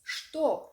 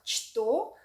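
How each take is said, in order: First: The word is said in its natural spoken form. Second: Each written letter is sounded out as spelled. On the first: "the right pronunciation of it is что" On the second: "it's spelled что"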